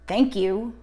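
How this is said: It is said in an angry tone.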